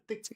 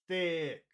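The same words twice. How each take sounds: First: The word is short and weak. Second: The word is long and strong. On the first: The speaker calls it wrong. "not thick" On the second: The speaker calls it right. "It's got to be big. It's long"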